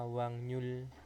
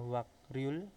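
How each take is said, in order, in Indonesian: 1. Bunyi tengahnya adalah nasal ng. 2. Bunyi tengahnya adalah k dan r biasa. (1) "itu dibacanya menjadi apa? Wangyul" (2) "dari katanya itu adalah wakryul"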